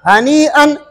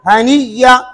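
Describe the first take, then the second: First: A glottal stop is heard inside the word. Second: A doubled y sound replaces the glottal stop.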